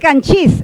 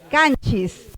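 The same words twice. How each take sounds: First: The stress is on the second syllable. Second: The stress is on the first syllable. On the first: This is what the basic stress rule predicts. The speaker calls it wrong. "Debería de jalar el acento. Debería ser canchis. Pero no es canchis" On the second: This is how the word is actually said. The speaker calls it right. "es canchis"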